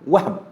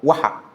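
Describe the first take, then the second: First: The h is followed directly by b. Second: A vowel is sounded after the h. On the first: The speaker calls it right. "yang betulnya ialah Wahab. Itu yang betul" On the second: The speaker calls it wrong. "kita mudah sebut Wahab. Kita bariskan juga huruf Ha"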